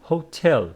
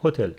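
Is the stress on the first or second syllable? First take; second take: second; first. First: The stress is on the second syllable. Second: The stress is on the first syllable. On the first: The speaker calls it right. "but it is hotel" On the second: The speaker calls it wrong. "in some other languages it is on the first, making it hotel"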